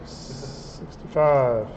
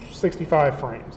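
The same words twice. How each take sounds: First: Sixty-five stretched out very slowly and low; slow drawn-out sixty-five. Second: Said in the usual way. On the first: Shown as a demonstration. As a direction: drag out sixty-five, correcting yourself. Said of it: "no, sixty-five".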